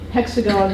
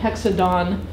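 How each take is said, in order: First: The middle consonant is a G sound. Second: The middle consonant is a D sound. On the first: This is the adult form. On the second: This is the child's form.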